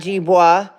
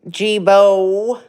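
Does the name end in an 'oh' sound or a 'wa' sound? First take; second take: wa; oh. First: The name ends in a 'wa' sound. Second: The name ends in a plain 'oh' sound. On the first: The speaker calls it wrong. "not Jibois" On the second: The speaker calls it right. "Jibo, not Jibois"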